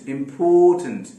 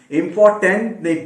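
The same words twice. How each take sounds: First: इंपॉर्टेंट with a reduced schwa before the end; teacher's model of इंपॉर्टेंट; correct pronunciation. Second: इंपॉर्टेंट loud, with a full टेंट like a tent; loud mock learner's इंपॉर्टेंट; wrong pronunciation demo. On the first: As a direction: model इंपॉर्टेंट, ending shortened to -टंट. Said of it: "आप इंपॉर्टेंट नहीं बोलते". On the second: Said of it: "बिल्कुल ऐसे ना बोले". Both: Shown as a demonstration.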